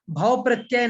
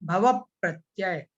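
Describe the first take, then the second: First: भव प्रत्यय run quickly together as "bhav-pratyay"; wrong pronunciation. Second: भव प्रत्यय slowly as "bha-vap-pratyay"; correct pronunciation. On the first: Teacher showing students the mistake, mispronounced भव प्रत्यय as "bhav-pratyay". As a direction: say भव प्रत्यय with the middle vowel dropped, quick and loose. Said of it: "भव प्रत्यय नहीं". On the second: Teacher correcting students' reading, careful "bha-vap-pratyay" for भव प्रत्यय. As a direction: sound the second vowel of भव and double the p into प्रत्यय, slow. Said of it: "उच्चारण में आपको बताई थी".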